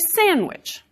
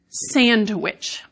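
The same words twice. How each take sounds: First: The D is dropped, leaving a plain N. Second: The D is pronounced after the N. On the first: "Many of us delete the D in that word" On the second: "which is actually not how I say that word most of the time"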